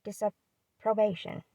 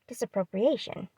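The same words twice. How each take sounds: First: Disapprobation said slowly, clearly as dis-ap-pro-BAY-shun; carefully fix disapprobation, slow and clean; corrected word. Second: Disapprobation misread as dis-ap-pro-pri-ation; misread word. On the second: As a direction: stumble on disapprobation, an extra syllable like appropriation. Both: Shown as a demonstration. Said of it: "Yeah, disapprobation".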